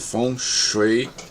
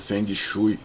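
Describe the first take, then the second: First: It is said with a Mandarin pronunciation. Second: It is said with a popular Portuguese pronunciation. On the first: The speaker calls it right. "Feng Shui ou Feng Shui em mandarim é que são as, as, as pronúncias mais adequadas" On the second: The speaker calls it wrong. "Geralmente falado por aí como o Feng Shui"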